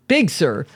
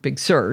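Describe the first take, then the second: First: The stress falls on the first word. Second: The stress falls on the second word. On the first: The speaker calls it wrong. "not Big Sur" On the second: The speaker calls it right. "The Sur gets the emphasis"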